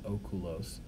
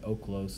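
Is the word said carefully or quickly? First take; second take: carefully; quickly. First: The word is said in its careful full form. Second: The word is said in a quick, reduced form. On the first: "instead of oculos" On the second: "when they were speaking quickly would say oculos"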